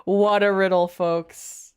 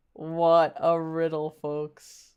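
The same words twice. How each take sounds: First: Said in the usual way. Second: Lower, slower, drawn-out mock announcer; deadpan it like a game show host. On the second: Repeating the quip to the audience as a low slow mock host.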